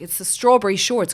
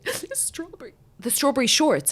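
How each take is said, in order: First: Loud, high burst of realisation; sudden realisation. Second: Much higher little-girl voice, mimicking; imitating upset daughter. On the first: Retold or imitated. Mother to daughter, loud realisation. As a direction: blurt it out as it suddenly clicks. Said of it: "I was like". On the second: Mother mimicking her daughter's meltdown, high child voice. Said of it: "and then she goes".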